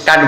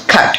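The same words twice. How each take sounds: First: "কাঠ" opened with a plain k; unaspirated K. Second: "খাট" with a puff of air after the k; aspirated K. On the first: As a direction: say "কাঠ" with no puff on the k. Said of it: "অনেকে মনে করে এটা কি কাঠ বলেছি". ("কাঠ" অল্পপ্রাণ ক দিয়ে, ভুল উচ্চারণ) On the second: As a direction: open "খাট" on a breathy kh-release. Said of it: "এটা সঠিক উচ্চারণ হচ্ছে খাট". ("খাট" খ দিয়ে মহাপ্রাণ উচ্চারণ) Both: Shown as a demonstration.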